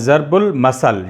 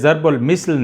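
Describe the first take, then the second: First: The second word begins with an 'a' vowel. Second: The second word begins with an 'i' vowel. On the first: The speaker calls it right. "बल्कि होता है ज़रबुल मसल" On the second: The speaker calls it wrong. "ये ज़रबुल मिसल नहीं है"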